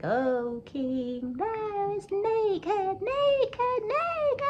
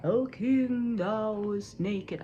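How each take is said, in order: First: Put-on very high, loud child's taunt; slow sing-song climbing to a piercing squeal. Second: Drawn-out, calling mystery voice; a loud opening call that stretches out slowly; different voice. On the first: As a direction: call out like a teasing child, stretched and high. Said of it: "he heard a child speak". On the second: Acted. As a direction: intone it like a disembodied voice on the wind. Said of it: "a different voice".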